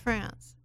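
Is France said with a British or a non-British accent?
non-British. France is said without a British accent.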